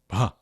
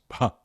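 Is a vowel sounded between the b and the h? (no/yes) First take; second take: no; no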